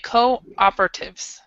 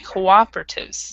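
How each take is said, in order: First: The co is said separately before operatives. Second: The co and op blend with a W-like glide. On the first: "in British English, they'll say cooperatives, how you said it" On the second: "In American English, we actually kind of combine this part for one sound"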